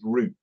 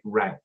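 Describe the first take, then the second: First: It is said with a British pronunciation. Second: It is said with an American pronunciation. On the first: "a better one to use is root" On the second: "or as Americans call it"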